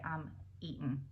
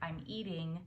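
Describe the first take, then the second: First: The final g in eating is dropped. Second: The final g in eating is pronounced. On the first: "They say I'm eating" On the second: "if you say like I'm eating food"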